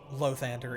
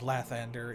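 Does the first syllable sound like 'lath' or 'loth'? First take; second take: loth; lath. First: The first syllable has an 'o' vowel, 'loth'. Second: The first syllable has an 'a' vowel, 'lath'. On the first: The speaker calls it wrong. "it is not Lothander" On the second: The speaker calls it right. "it is Lathander"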